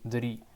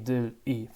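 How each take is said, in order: First: The syllables run together quickly into one word. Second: The syllables are said separately, without linking.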